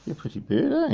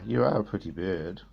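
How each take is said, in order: First: High sing-song pretty bird; teaching a parrot, high. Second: Teaching a parrot, low. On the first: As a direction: lift it up high like the bird should. Coaching parrot, high take. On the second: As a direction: drop the voice down to coax the bird. Coaching parrot, low take. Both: Real, not acted.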